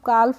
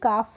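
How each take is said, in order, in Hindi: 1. F से पहले L का साउंड बोला जाता है। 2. F से पहले L का साउंड साइलेंट होता है। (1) "इसको हम काल्फ नहीं पढ़ते हैं" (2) "काफ पढ़ते हैं"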